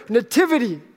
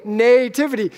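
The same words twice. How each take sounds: First: "nativity" said nuh-TIV-ity, second syllable stressed; accent later in nativity. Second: "nativity" said NAY-tivity, first syllable stressed; accent on NAY. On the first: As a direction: reduce the first vowel of "nativity", stress TIV. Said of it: "She puts the accent later". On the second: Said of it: "I put the accent on the nay". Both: Shown as a demonstration.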